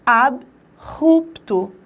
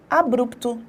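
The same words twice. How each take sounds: First: ABRUPTO broken as ab... rupto, very slowly; drawn-out AB, then RUPTO with a guttural r; correct syllable split. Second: ABRUPTO run together as a-brup-to; common pronunciation. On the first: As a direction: say ABRUPTO with a pause after AB and a strong initial r. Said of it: "a separação silábica também estará. Percebam". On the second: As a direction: say ABRUPTO the everyday way, br blended in one syllable. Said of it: "é a forma que nós pronunciamos". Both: Shown as a demonstration.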